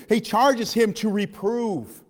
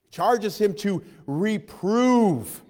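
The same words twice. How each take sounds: First: Very slow, weighted words; slow emphasis. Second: Very slow, drawn out; slower emphasis. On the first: Preacher reading the charge to the church, very slow. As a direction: read it out like a solemn charge. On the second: Preacher repeating the charge to the church, very slow. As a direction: stretch every word to drive it home. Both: Acted.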